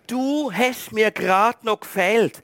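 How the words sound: It is said in a warm, glad tone. The person was missed and searched for. "Mit dieser Tonlage tönt das völlig anders"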